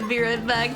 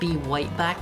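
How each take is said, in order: First: The word right starts with a normal R sound. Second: The word right starts with a W sound.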